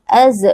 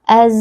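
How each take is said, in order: First: The final z ends with a bouncing release. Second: The final z flows with a slight continuous hiss. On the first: The speaker calls it wrong. "huruf zai ini dipantulkan... itu salah" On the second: The speaker calls it right. "Kita berikan sedikit aliran suara"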